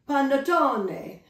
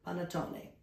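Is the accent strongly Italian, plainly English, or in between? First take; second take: Italian; in between. First: It is said with a strong, exaggerated Italian accent. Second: It is said with a mild, half-Italian accent. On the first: "I promise I won't say it like that every time" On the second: "I'll take the middle"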